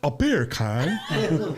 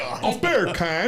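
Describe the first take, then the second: First: Very slow British "A beer can?", laughing through it; mock English accent. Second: Slow, drawn-out British "A beer can?" with a laugh; mock English accent. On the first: Mocked by friends, a slow laughing English accent. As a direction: drag out a bad English accent. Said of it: "don't ever do an English accent". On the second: Asked to say beer can, a slow laughing English accent. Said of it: "say beer can in the English accent".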